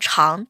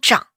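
First: The character is read cháng, with a rising tone. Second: The character is read zhǎng, with a dipping tone. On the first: Something is long in time. The speaker calls it wrong. "这个来日方长真的不能念长" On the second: Something grows or rises. The speaker calls it right. "它应该念作来日方长"

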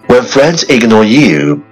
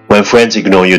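First: It is spoken at a moderate, steady pace. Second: It is spoken very fast, all in one breath.

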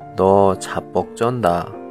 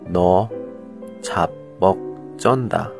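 First: It is said quickly. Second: It is said slowly.

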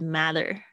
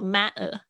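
First: American accent, the t is flapped. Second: British accent, the t is dropped.

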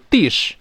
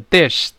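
First: The vowel is long and tense. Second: The vowel is short and lax. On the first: The speaker calls it wrong. "不要读dish" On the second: The speaker calls it right. "要读dish"

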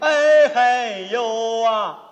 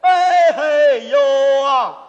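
First: It is said quietly. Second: It is said loudly.

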